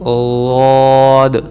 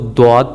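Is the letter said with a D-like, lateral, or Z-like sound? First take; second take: lateral; D-like. First: The letter is said with a soft lateral sound. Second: The letter is said with a hard d-like sound. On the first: The speaker calls it right. "इसकी जो असल वॉइस है वो पढ़नी है" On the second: The speaker calls it wrong. "ना हमने उसको द्वाद पढ़ना"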